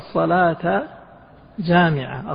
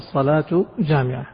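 First: Both words end with a-vowel case endings. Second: Both words end with u-vowel case endings. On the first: It urges attending the prayer, which is gathering. "الصلاة الأولى ستكون منصوبة على إيش؟ على الإغراء" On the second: It states that the prayer is gathering. "تضبط بالرفع الصلاة جامعة على المبتدأ والخبر"

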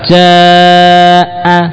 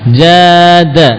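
First: The long vowel is held for four beats. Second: The long vowel is held for two beats. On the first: "itu empat harokat" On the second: "Dua harokat"

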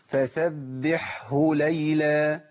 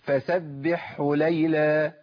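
First: The h sound is kept after the ḥ. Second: The h sound merges into the ḥ. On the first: The speaker calls it right. "أنا جبتها كده مظبوط؟" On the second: The speaker calls it wrong. "اسمع الخطأ ... الهاء اتضغمت"

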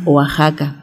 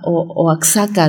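First: The x is not pronounced as ks. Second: The x is pronounced as ks. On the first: This is how it is said locally. The speaker calls it right. "que se decía Oaxaca" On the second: Someone from outside said it this way. The speaker calls it wrong. "ellos leían la X así, XS"

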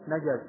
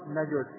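First: The middle consonant is followed by an a vowel. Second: The middle consonant is followed by a u vowel. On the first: "يجوز في الجيم الفتح" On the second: "ويجوز الضم"

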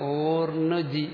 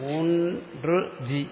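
First: The r sound comes before the n sound. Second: The n sound comes before the r sound. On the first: The speaker calls it wrong. "ഊർണ് G എന്ന് വരരുത്" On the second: The speaker calls it right. "ഊൺറ് G എന്ന് പറയണം"

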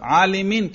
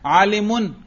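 First: The word ends with the vowel i before n. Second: The word ends with the vowel u before n. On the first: The word is in the genitive case. "جار" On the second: The word is in the nominative case. "رفع"

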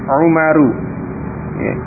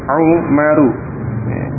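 Both takes have the same delivery.

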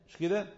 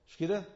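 No difference in how they are said.

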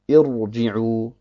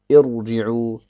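No difference in how they are said.

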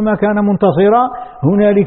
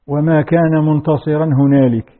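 First: The phrase runs on without pausing after هنالك. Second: The phrase stops with a pause after هنالك. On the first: هنالك begins the following clause. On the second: هنالك belongs to the preceding clause.

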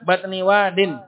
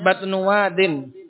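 First: The first word ends with an 'i' vowel. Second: The first word ends with an 'u' vowel. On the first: The speaker calls it right. "Yang benar batni wadin" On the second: The speaker calls it wrong. "Kalau Syekh Mukbil bacanya batnu wadin. Tapi itu salah"

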